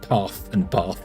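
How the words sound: The vowel is long, as if an R follows. The speaker calls it right. "we say path and bath"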